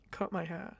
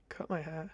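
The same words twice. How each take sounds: The two takes are said the same way.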